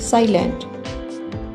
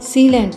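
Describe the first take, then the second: First: The first vowel sounds like 'eye'. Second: The first vowel sounds like 'ee'. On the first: The speaker calls it right. "साइलेंट कहेंगे, क्योंकि ये एक long vowel है" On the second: The speaker calls it wrong. "इसे सीलेंट नहीं"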